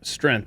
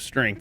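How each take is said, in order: First: The word is said without the ng sound. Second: The word is said with the ng sound. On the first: The speaker calls it wrong. "him saying uh, strength" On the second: The speaker calls it right. "the G there makes it str- the ank, angth"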